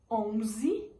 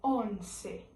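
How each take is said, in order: First: "Onze" slowly, with a z sound; Portuguese pronunciation. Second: "once" slowly, with an s sound; Spanish pronunciation. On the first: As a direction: say "Onze" as on-zee. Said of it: "em português". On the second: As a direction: say "once" as on-seh. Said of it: "em espanhol". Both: Shown as a demonstration.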